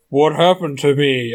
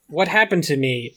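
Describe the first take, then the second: First: It is said in a very low voice. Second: It is said at a normal pitch. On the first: The speaker calls it right. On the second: The speaker calls it wrong.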